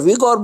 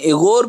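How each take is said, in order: First: The name begins with a 'wee' sound. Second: The name begins with an 'ay' sound. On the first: "American action में अक्सर विगोर बोला जाता है" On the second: "एगोर भी कहते हैं"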